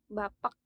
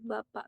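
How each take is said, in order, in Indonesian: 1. K di akhir diakhiri dengan letupan yang terdengar. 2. K di akhir diakhiri tanpa letupan yang terdengar. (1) "itu penyebutannya di di itu diletupkan" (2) "biasa aja enggak"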